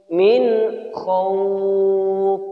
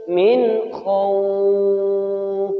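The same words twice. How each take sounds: The two takes are said the same way.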